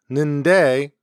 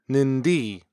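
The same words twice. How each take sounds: First: Said in the usual way. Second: "nindi" with the diphthong cut to its second vowel; Jala pronunciation. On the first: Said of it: "tend to pronounce only the second". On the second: Shown as a demonstration. Showing listeners how Jala speakers drop a vowel, Jala pronunciation. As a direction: say "nindi", ending on a plain ee. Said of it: "pronounce only the second vowel".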